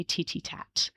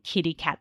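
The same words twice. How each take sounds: First: "titty tat" with t replacing k; child fronting kitty cat; fronted sounds. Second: Said in the usual way. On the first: Shown as a demonstration. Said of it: "they might say titty tat". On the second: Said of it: "instead of saying kitty cat".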